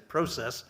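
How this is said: It is said with a Canadian pronunciation.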